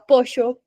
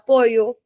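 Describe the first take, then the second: First: The double L is said as a sh sound. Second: The double L is said as a y sound. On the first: "quando você vai para a Argentina, você fala pocho" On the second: "na Espanha, você vai falar pollo"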